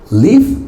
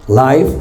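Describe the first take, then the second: First: The vowel is short, as in 'give'. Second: The vowel is long, as in 'five'. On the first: It is the verb meaning to be alive. "Live si es un verbo, vivir" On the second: It is an adjective meaning alive or happening now. "Life si es un adjetivo"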